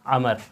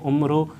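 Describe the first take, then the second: First: The name begins with an 'a' vowel: Amr. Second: The name begins with a 'u' vowel: Umr. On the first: The speaker calls it right. "ये लफ्ज़ हम यूँ पढ़ते हैं" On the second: The speaker calls it wrong. "हम इसको यूँ पढ़ जाते हैं उम्र ... ये गलत है"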